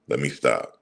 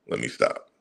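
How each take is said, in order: First: Said in the usual way. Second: Breathy whisper, reining himself in. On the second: Real, not acted. Ranting vlogger hushing himself to stop, whispered.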